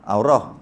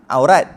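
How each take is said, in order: First: The word ends with an h sound. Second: The word ends with a t sound. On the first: This is the original form when pausing. The speaker calls it right. "sebenar aurah" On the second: This is the everyday way people say it. The speaker calls it wrong. "Biasa kita cakap aurat"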